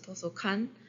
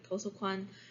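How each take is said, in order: First: It is said with the compound vowel reduced, Busan-style. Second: It is said with the standard compound vowel.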